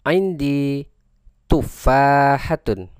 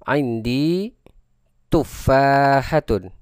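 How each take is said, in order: The two takes are said the same way.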